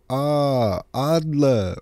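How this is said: The name is said in a mocking way. The speaker is making fun of the character. "if you're trying to make fun of him and you go"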